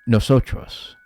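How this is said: It is said with a Spanish accent.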